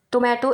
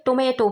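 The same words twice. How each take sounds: First: टोमेटो said as "tomahto" with a broad ah; टोमेटो with the British "maa" vowel, tom-AH-to; British pronunciation of टोमेटो, toh-MAH-toh; British tomato. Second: टोमेटो said as "tomayto" with an ay vowel; टोमेटो with the American "may" vowel, tom-AY-to; American pronunciation of टोमेटो, tuh-MAY-doh; American tomato. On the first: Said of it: "British English में टोमेटो". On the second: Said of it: "American English में टोमेटो". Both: Shown as a demonstration.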